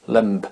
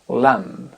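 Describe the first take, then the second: First: The final B is pronounced. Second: The final B is silent. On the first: The speaker calls it wrong. "et non pas lamb" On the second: The speaker calls it right. "On n'insiste pas sur le B, on ne l'entend pas"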